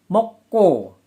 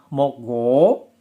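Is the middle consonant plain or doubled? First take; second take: doubled; plain. First: The middle consonant is a doubled tense k. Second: The middle consonant is a plain g sound. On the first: This is how the word is actually pronounced. "pelafalannya mokko" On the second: This is how the word is written. "penulisannya adalah mokgo"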